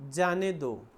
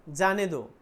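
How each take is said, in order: Both takes have the same delivery.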